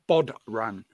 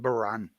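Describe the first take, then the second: First: A d sound is heard in the middle. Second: No d sound is heard in the middle. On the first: This is how it is said in Ireland. "In Ireland, it's called the Bod Bodran" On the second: This is how it is said locally. "Over here, they call it the Boran"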